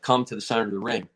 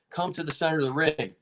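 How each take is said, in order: First: Said in the usual way. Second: Imitating a referee repeating himself, higher; mildly insistent, pitched-up command; insistent order. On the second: Referee calling the stubborn fighter to center again, insistent.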